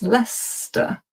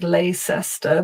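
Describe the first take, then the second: First: The word is said in a shortened form. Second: Every written letter group is pronounced. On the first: The speaker calls it right. "it's Leicester" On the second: The speaker calls it wrong. "it looks like Leicester, but it's not"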